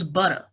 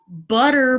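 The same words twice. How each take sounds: First: The word ends with an 'a' sound. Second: The word ends with an 'er' sound.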